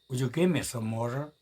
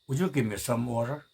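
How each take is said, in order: No difference in how they are said.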